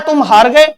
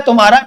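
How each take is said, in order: First: Two separate words, तुम then हार, with the beat on हार; stress on हार. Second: तुम्हारा run together as one word, evenly stressed; no vowel stress. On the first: Teacher showing where the stress falls, stressed हार in तुम हार गए. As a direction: say तुम apart and hit the vowel of हार. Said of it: "इस शब्द में तो स्वर पर चोट पड़ रही है". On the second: Teacher contrasting the two words, unstressed joined तुम्हारा. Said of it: "इसमें स्वर पर चोट नहीं पड़ी". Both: Shown as a demonstration.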